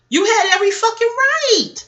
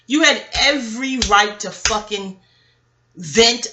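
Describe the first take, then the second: First: High and loud, leaning on right; loud emphatic support. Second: Said in the usual way. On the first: Real, not acted. Telling Jennifer on Basketball Wives she was right, loud. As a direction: defend her at full volume.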